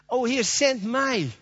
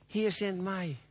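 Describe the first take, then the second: First: Fervent plea. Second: Soft plea. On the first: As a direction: call it out slowly like a man volunteering. Isaiah's reply, repeated fervently. (vurig en langzaam uitgeroepen) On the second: Isaiah's reply, first softly. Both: Acted.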